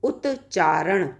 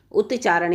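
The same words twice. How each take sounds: First: Drawn out slowly, each syllable of उत्चारण clear; teacher saying उत्चारण at half speed; slow demo. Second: Said in the usual way. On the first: Shown as a demonstration. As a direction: spell out उत्चारण slowly for students. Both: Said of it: "जैसे हमने कहा".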